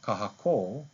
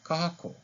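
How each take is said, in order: First: The final vowel is held long. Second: The final vowel is kept short. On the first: "With one" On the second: "Without one"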